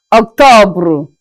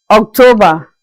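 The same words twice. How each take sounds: First: Octobre with the final R clearly sounded; French pronunciation. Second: Said in the usual way. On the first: Shown as a demonstration. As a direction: say Octobre, make the R come out. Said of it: "we say octobre". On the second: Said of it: "in French, we say octobre".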